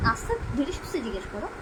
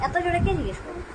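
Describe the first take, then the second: First: Soft, hushed and gentle; gently and softly. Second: Pitched up, a big loud question; high loud ask. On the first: Mother showing baby the soft way to ask. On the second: Mother showing baby the loud way to ask. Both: Shown as a demonstration.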